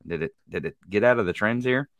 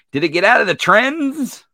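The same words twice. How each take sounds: First: Said in the usual way. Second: Loud, high, exasperated question. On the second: Real, not acted. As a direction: call it out in disbelief.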